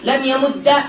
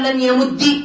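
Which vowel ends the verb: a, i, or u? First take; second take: a; i. First: The verb ends with a short a vowel. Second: The verb ends with a short i vowel. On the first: It makes the word lighter to say. "من فتح" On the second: It avoids two silent consonants meeting. "من كسر"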